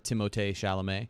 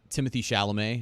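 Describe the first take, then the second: First: The name is said with a French pronunciation. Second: The name is said with an English pronunciation. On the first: The speaker calls it right. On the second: The speaker calls it wrong.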